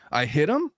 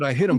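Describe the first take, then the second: First: It is said as a question, rising. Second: It is said as a flat statement, falling.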